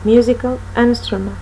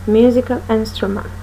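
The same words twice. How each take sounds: The two takes are said the same way.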